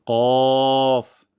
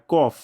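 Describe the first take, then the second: First: Loud, long কফ from the tongue root; heavy qaf. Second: কফ with an everyday Bengali k; wrong kof. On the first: Teacher introducing the letter, long heavy কফ. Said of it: "মোটা সাউন্ডে উচ্চারণটি করব". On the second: Teacher warning learners, short Bengali-k কফ. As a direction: say কফ short, without the back q. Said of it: "যেন এমন না হয়". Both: Shown as a demonstration.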